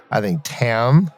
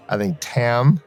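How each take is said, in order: Both takes have the same delivery.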